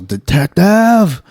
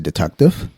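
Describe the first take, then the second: First: It is yelled loudly. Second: It is said calmly and quietly.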